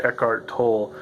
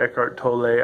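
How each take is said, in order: First: Tolle said like "toll"; Tolle as one syllable. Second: Tolle said like "toe-lay"; Tolle as two syllables. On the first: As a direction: say Tolle with a silent final E. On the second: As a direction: end Tolle on an "ay" sound. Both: Shown as a demonstration. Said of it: "I don't know how to pronounce it".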